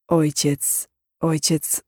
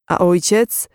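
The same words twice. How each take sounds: First: Quiet, stalling "ojciec", trailing into thought; hesitant musing. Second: OJCIEC lifted into a rising question; gentle question. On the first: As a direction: mull over "ojciec", pausing between repeats. He hesitates, repeating the word. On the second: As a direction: prompt with "ojciec", voice rising at the end. Listener asks about his father. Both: A narrator's reading.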